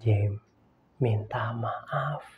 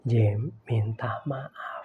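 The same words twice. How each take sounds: First: Low, soft, slow command; a hint of God gently insisting; quiet voice of God. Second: Low, slow whisper; whispered voice of God. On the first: God quietly telling Jim to apologize, low soft command. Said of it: "ngomong sama saya gini". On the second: Retold or imitated. God repeating to Jim in a whisper, slow insistence. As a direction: breathe it out, gentle and firm. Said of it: "Sekali lagi, Tuhan".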